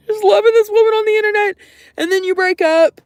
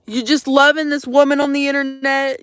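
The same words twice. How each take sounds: First: Much higher, louder and fast, like a squeal; overwrought outburst. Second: Said in the usual way. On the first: Real, not acted. Venting to the stream about the breakup, a high exasperated squeal. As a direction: burst out in a high, fast rush. Repeats the line, then heightens it.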